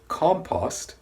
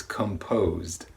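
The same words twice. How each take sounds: First: Compost with stress on COM; contrast take. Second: Composed with stress on POSED; contrast take. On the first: Teacher contrasting compost with composed. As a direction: say compost with a short ah vowel. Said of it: "The first one was compost". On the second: Teacher contrasting composed with compost. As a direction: say composed with a rounded O and final D. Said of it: "The second one is composed". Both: Shown as a demonstration.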